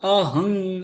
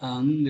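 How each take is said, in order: First: An h sound is heard between the vowels. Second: No h sound is heard between the vowels. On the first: The speaker calls it right. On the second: The speaker calls it wrong.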